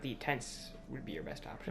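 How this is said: It is said with a sarcastic tone. The speaker calls it wrong. "That tone doesn't help anything"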